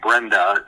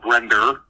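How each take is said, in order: First: It is said with a standard final vowel. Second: It ends with an added r, New York style.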